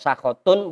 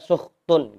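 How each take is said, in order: First: The word has three syllables, sa-kha-tun. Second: The word has two syllables, sukh-tun. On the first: "Boleh dibaca sakhatun" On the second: "boleh dibaca sukhtun"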